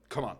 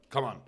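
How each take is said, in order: Both takes have the same delivery.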